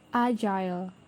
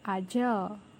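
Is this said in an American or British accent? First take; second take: British; American. First: It is said in a British accent. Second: It is said in an American accent. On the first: "British accent" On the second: "American accent"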